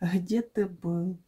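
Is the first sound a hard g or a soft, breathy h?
soft h. It begins with a soft, breathy h sound. This is the local way of speaking. "Мы говорим «гэ»"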